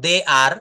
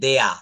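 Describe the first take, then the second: First: It is said as two separate full words. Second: It is said as one contracted syllable. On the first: "এইটা না বলে" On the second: "বলা হচ্ছে দেয়া"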